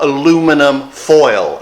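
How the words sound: Aluminum is said the American way, with four syllables.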